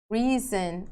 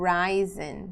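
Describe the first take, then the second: First: "risen" said RIZ-en, with a short i; short-i pronunciation. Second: "risen" said RYE-zen; long-i pronunciation. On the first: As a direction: say "risen" to rhyme with prison. ("risen" com i curto, como RÍ-zen) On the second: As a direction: say "risen" with the vowel of rise. ("risen" com ditongo, como RÁI-zen) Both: Shown as a demonstration. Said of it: "Dependendo da pronúncia".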